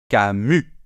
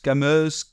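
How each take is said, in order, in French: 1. Le S final est muet. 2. Le S final est prononcé. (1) "On ne prononce pas le S final" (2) "on ne va pas dire Camus"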